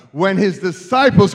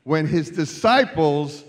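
First: Loud, insistent preacher's "When his disciples"; loud rallying repeat. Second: Said in the usual way. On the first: Real, not acted. Repeats louder to rally unresponsive congregation.

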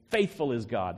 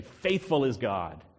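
First: Faithful put first and leaned on; stress on FAITHFUL. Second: Faithful stretched and slow, weight on the first word; stress on FAITHFUL. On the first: Preacher repeating the Greek order for the congregation, Faithful stressed. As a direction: land on Faithful then ease off. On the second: Preacher showing the Greek word order to the church, Faithful stressed. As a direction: lean hard on Faithful, slowly. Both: Shown as a demonstration. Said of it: "That's the emphasis".

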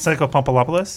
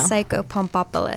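First: "Psycho Pumpolopoulos" with an extra -lo- syllable, questioning rise; wrong pronunciation. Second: "Psycho Pumpopoulos" as pum-PO-pu-los, falling and sure; correct pronunciation. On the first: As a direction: say "Pumpolopoulos" as pum-po-LO-po-los, unsure. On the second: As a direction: say "Pumpopoulos" cleanly with four syllables. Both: Shown as a demonstration.

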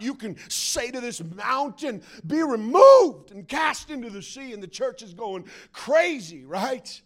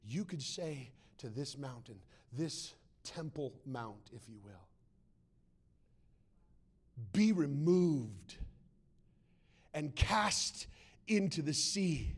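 First: Loud preacher's proclamation, swelling on REMOVED; mock faith-preacher fervor; hyped-up preacher. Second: Quietly pointed scripture reading; measured reading. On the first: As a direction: belt it out to excite the church. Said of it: "preaching it in a way that is ungodly". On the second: Shown as a demonstration. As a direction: space out each phrase with weight. Preacher rereads the verse deliberately.

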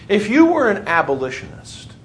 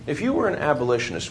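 First: "you" pushed higher and louder, set up as a question; stress on you. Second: Said in the usual way. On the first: Shown as a demonstration. Teacher poses a role question to the class, stressing "you". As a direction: lean on "you" to put students in the role.

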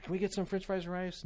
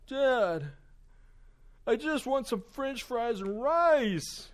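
First: Put-on higher-pitched child's request; imitating a little boy asking; young son asking. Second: High, loud mock tantrum; imitating a son's slow, high-pitched whine; whining child. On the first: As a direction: ask Dad hopefully, pitched up. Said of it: "He's like". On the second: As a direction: wail it like a thwarted little boy, dragging the words out. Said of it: "all of a sudden his attitude changes".

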